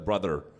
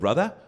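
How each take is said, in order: First: It is said with an American English accent. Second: It is said with a British English accent. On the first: "en américain, c'est euh" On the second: "en anglais, c'est euh"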